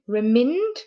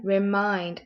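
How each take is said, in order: First: "Remind" with a short i, like "reminned"; wrong short i. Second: "Remind" with the long i vowel, as in "kind". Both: Shown as a demonstration. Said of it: "That sounds better".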